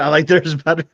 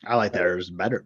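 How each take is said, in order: First: Said in the usual way. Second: Low, lightly growled pirate voice. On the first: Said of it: "Whoa, that came out weird". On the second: Acted. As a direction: say it like a swaggering pirate, lower. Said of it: "I'm still talking in that pirate voice".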